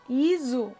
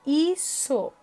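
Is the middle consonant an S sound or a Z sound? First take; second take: Z sound; S sound. First: The middle consonant is a buzzing Z sound. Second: The middle consonant is a hissing S sound. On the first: The speaker calls it wrong. "se tivesse um S só" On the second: The speaker calls it right. "para ter o som de S, uso dois S's"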